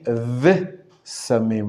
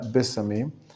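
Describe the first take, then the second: First: The word begins with a soft V sound. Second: The word begins with a hard B sound. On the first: The word is joined to the word before it. The speaker calls it right. "the correct pronunciation is as I wrote it" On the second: The word stands apart from the word before it. The speaker calls it wrong. "not bisamim"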